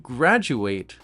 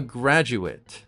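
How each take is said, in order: First: The last syllable is said like 'ate'. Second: The last syllable is said like 'it'. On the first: It names the action of finishing studies. "The ending for the verb or the action is ate" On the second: It names a person who finished studies. "The ending for the noun or the person is it"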